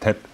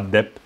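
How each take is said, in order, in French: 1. Le mot commence par un t soufflé. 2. Le mot commence par un d voisé. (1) "c'est tep" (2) "C'est pas dep"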